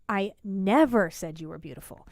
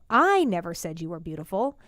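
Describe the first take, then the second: First: The word never carries strong stress. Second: The word never carries no special stress.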